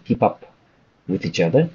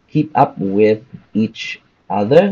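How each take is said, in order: First: The words are linked smoothly together. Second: The words are said separately, without linking. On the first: The speaker calls it right. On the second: The speaker calls it wrong.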